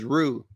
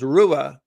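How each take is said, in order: First: The name ends with a plain 'oo' sound. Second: The name ends with an extra 'ah' sound. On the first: This is how the family says it. "my family just says Rue" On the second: This is the original German pronunciation. "the German name is pronounced Rua"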